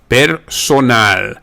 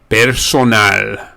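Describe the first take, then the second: First: It is said with Spanish sounds. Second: The same.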